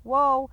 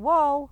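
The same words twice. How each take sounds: First: The command is said in a flat, unchanging tone. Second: The same.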